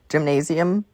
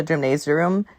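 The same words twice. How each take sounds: First: "gymnasium" said as "jim-nay-zee-um"; corrected pronunciation. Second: "gymnasium" garbled as "gym-nay-zee-a-room"; mispronounced word. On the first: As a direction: end "gymnasium" on a plain "-um". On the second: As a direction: add an extra "room" ending to "gymnasium". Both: Real, not acted. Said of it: "whatever the fuck it's called".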